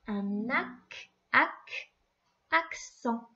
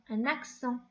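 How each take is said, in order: First: Un ac, ac, accent split into syllables, rising and louder; sounding out. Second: Said in the usual way. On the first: Shown as a demonstration. Teacher to pupil, accent sounded out syllable by syllable. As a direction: break accent apart, ac, then accent. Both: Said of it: "le premier C va faire que".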